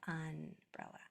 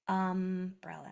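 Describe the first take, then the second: First: The sound before the b is n. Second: The sound before the b is m. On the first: The speaker calls it wrong. "instead of" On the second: The speaker calls it right. "if the next letter is a P or a B, it's going to be an M"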